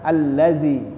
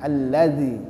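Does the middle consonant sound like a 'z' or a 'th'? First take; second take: th; th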